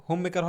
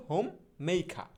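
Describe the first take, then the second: First: Said in the usual way. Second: হোম, pause, মেইখা with aspirated "kha" and no r; slow model pronunciation. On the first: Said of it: "হোম মেকার হবে না". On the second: Shown as a demonstration. Teacher modelling homemaker for learners, হোম মেইখা in slow parts. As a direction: separate হোম and মেইখা, glide "mei", open আ ending. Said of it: "হবে হচ্ছে".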